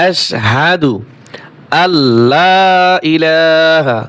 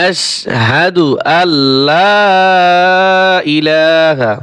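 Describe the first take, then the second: The two takes are said the same way.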